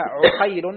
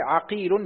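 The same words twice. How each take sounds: First: عقيل as ʿuqayl, u then ay; damma on ayn. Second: عقيل as ʿaqīl, a then long ī; fatha on ayn. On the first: Student repeating for his teacher, عقيل as ʿuqayl. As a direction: start عقيل on a rounded u. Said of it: "بضم العين". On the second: Student repeating for his teacher, عقيل as ʿaqīl. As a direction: start عقيل on an open a. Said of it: "بفتح العين". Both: Shown as a demonstration.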